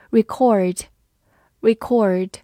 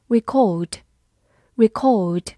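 First: American "record", stressed on second syllable; American accent. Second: British "record", stressed on second syllable; British accent. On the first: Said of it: "美式发音读作record". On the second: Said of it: "英式发音读作record". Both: Shown as a demonstration.

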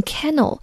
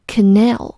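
First: Canal stressed on the first syllable, CA-nal, as the mistake to avoid; teacher demonstrating the common mispronunciation of canal; wrong stress demo. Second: Canal said ca-NAL, weak first vowel, stress landing on the second syllable; teacher modelling the right pronunciation of canal; correct stress demo. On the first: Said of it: "千万不要读成canal". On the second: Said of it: "要注意重音在n的前面". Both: Shown as a demonstration.

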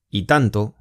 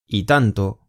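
The two takes are said the same way.

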